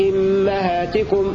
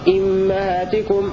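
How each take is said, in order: The two takes are said the same way.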